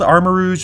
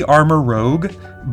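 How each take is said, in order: First: The name ends with a soft zh sound. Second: The name ends with a hard g sound. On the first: "which is typically pronounced Rouge, I think. So I think it's called Armarouge" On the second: "it could be Armarouge, but I usually Rogue is spelled O G U E"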